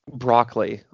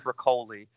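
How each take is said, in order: First: The name is pronounced the English way. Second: The name is pronounced the Italian way. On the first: "I've heard him called Broccoli quite a bit" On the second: "maybe the proper Italian pronunciation is Broccoli"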